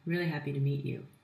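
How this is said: It is said in a flat, monotone voice. The speaker does not come across as energetic. The speaker calls it wrong. "It is just rather droll and monotone"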